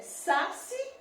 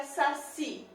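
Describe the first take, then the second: First: Saci misstressed, weight on "sa"; stress on first syllable. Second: Saci with a long, strong final "ci"; stress on last syllable. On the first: Teacher asking where the accent is, saci stressed on "sa". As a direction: drag out the "sa" in saci. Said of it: "O acento é saci ou é saci?". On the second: Teacher giving the right option, saci stressed on "ci". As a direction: lean hard on the "ci" of saci. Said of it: "A sílaba tônica mais forte é o si". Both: Shown as a demonstration.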